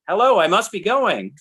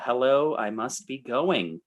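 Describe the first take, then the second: First: Exclaimed title. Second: Said in the usual way. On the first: Shown as a demonstration. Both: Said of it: "with an exclamation point".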